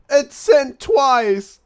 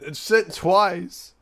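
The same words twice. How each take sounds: First: Much higher, louder and slow; shocked disbelief. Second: Slow, stunned disbelief. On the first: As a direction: cry out in stunned disbelief. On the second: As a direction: drag it out, not believing it. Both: Real, not acted. Same message sent twice.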